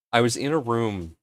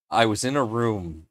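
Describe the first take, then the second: No difference in how they are said.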